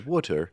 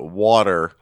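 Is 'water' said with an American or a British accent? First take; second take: British; American. First: It is said with a British accent. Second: It is said with an American accent. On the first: "a British person who hates when we call it water as opposed to" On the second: "when we call it water"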